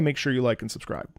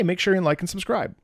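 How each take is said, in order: First: The pitch falls at the end. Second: The pitch rises at the end. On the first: It is a statement. "when we descend, it's usually uh, to a period" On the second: It is a question. "That goes up. That becomes a question"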